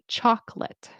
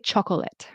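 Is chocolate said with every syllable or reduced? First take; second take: reduced; every syllable. First: The word is said in a shorter, reduced form. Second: Every syllable of the word is fully pronounced. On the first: The speaker calls it right. "We say chocolate" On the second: The speaker calls it wrong. "we don't really pronounce, we don't say chocolate"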